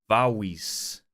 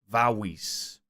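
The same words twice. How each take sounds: The two takes are said the same way.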